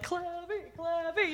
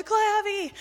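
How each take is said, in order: First: Put-on high, soft sing-song kid chant; playful kid. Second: High, loud group chant imitated; cheering kids. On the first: Camper arriving at the front of the line, playful kid voice. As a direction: imitate a boy softly chanting his nickname. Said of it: "then he's like". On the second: All the campers echo his nickname, cheering kids. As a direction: call it out like a crowd of kids. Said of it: "and all the kids".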